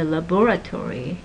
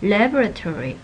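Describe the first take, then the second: First: Laboratory stressed on the second syllable; la-BOR-a-tory, hit BOR; laboratory the British way, stress on BOR. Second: Laboratory stressed on the first syllable; LAB-ra-tory, hit LAB; laboratory the American way, LAB first. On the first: Retold or imitated. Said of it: "when British people say". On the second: Shown as a demonstration. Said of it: "put stresses on different syllables".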